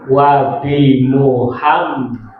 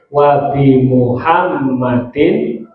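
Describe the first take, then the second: First: The name ends without an added -in sound. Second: The name ends with an added -in sound. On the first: The speaker calls it wrong. "Bukan wabim" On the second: The speaker calls it right. "tapi wabi Muhammadin"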